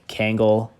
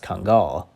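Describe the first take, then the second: First: The first syllable sounds like 'Kang'. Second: The first syllable does not sound like 'Kang'. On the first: This is how many people say it. "I've heard many pe- people pronounce it like Kangal, like Kang the Conqueror" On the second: This is how some sources say it is pronounced. "some of my sources say it's pronounced Kungal"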